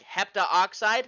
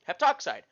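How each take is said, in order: First: The a vowel is kept, giving four syllables. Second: The a vowel is dropped, giving three syllables. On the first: The speaker calls it wrong. "let's go and look at what that would be like" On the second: The speaker calls it right. "you can save yourself a syllable"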